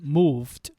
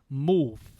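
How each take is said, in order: First: The word ends with a clear d sound. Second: The word ends without the d sound. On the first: "Instead of saying moved" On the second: "we will kind of omit the ed sound"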